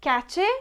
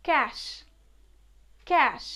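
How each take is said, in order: First: Cache said in two syllables, KA-che; cache with a ch and final e sounded; common mispronunciation. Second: Cash said as one syllable, kash; correct pronunciation. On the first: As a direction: say cache as "catch-ay". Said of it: "it is not cache". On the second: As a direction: say cash with a final sh. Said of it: "it is not cache, it's". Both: Shown as a demonstration.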